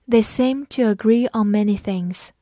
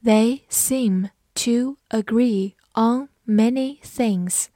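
First: Said in the usual way. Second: Slow, careful read, each word apart. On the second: Shown as a demonstration. Teacher slowly reading the sentence aloud for the class. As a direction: stretch the sentence out slowly for learners. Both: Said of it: "好，慢读一遍".

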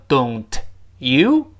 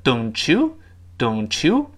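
First: "don't", pause, "you", unlinked; separated words. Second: "don't you" run together as "donchoo"; linked ch sound. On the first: Teacher showing the words before linking, "don't / you" separated. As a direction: say "don't" and "you" apart, keeping the t. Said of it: "我们读成don't you". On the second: Teacher demonstrating liaison, "don't you" joined with ch. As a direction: slowly link "don't you" with a ch. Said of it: "又会变成ch这个声音". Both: Shown as a demonstration.

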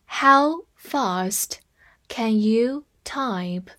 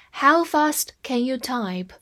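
First: Slow, in two parts; slow reading. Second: Said in the usual way. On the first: Shown as a demonstration. Teacher reading slowly to students, in chunks. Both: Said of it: "我们慢慢来读一下".

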